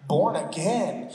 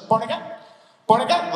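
First: "Born again" said slowly, each word separate; baffled Nicodemus, spaced out. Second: "Born again" quick and slurred into one word; run together as one word. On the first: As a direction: stretch "Born again" out at half speed. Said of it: "breathe in between the words born and again". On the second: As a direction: rattle off "Born again" with no gap between words. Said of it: "Like, it's one word". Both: Retold or imitated.

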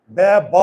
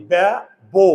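First: ব্যা ব with the second ব said as an open ব, not বো; ব্যা ব, ending on an open অ sound; wrong pronunciation. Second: ব্যা বো, the second ব closed into বো; ব্যা বো with the jaw kept shut so অ turns to ও; right pronunciation. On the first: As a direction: demonstrate the wrong reading ব্যা ব, jaw open on ব. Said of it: "এটা তো বলি না". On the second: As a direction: give the correct reading ব্যা বো, rounded বো. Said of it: "আমরা বলি কি?". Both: Shown as a demonstration.

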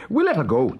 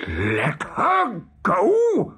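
First: Said in the usual way. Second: Slow, high, incredulous roar; outraged cry. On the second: A narrator's reading. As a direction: drag out each word in disbelief. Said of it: "cried Hook".

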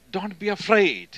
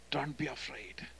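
First: Higher and louder "Don't be afraid"; strong reassurance. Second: Much softer "Don't be afraid", gently echoed; soft repeat. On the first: Jesus declaring to his people, higher and loud. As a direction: declare it boldly. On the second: Jesus softly repeating his comfort, much quieter. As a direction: repeat it as a tender hush. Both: Retold or imitated.

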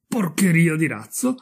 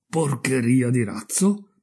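First: Higher, questioning repeat with rising end; incredulous echo. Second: Slow, questioning repeat with rising end; puzzled echo. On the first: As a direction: repeat the insult in mounting disbelief. Repeats the insult, more incredulous. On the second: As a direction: weigh the insult in slow disbelief. Offended rocket echoes the insult. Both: Acted.

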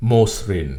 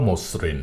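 First: মসৃণ said "mo-srin", s begins the second syllable; variant with single s. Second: মসৃণ said "mos-srin", s held double; variant with doubled s. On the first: Teacher giving the first accepted variant, "mo-srin". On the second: Teacher giving the second accepted variant, "mos-srin". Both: Shown as a demonstration. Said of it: "দুটি উচ্চারণেই সঠিক".

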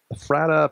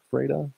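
First: "Ephrata" with a short flat A in the middle, as eh-FRAT-uh; tentative pronunciation. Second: "Ephrata" with a long A, as FRAY-duh; alternative pronunciation. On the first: Preacher unsure of a town's name, "Ephrata" as eh-FRAT-uh. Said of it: "I don't know if I'm saying that". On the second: Preacher checking with Andy, "Ephrata" as FRAY-duh. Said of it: "Is that right, Andy?". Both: Shown as a demonstration.

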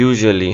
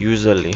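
First: English-style "Usually", middle consonant softened; corrected English pronunciation. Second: Said in the usual way. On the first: Shown as a demonstration. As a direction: model "Usually" with zh in place of z. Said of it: "উচ্চারণটা কীভাবে হওয়া উচিত ছিল?". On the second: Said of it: "এটা আমরা ছোটবেলা থেকে উচ্চারণ করছি".

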